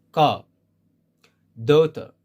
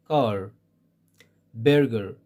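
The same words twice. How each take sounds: First: "Ka, daughter" ending in open vowels, no R; British silent R. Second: "Car, burger" with the R fully sounded; American pronounced R. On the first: Teacher gives British examples, "Ka, daughter" without any R. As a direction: drop the final R in "Ka, daughter". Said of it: "they don't pronounce it at all". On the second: Teacher gives American examples, "Car, burger" with sounded R. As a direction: curl a clear R into "Car, burger". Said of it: "pronounce it as R sound". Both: Shown as a demonstration.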